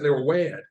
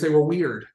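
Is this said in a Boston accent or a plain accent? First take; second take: Boston; plain. First: It is said in a put-on Boston accent. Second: It is said in the speaker's ordinary accent.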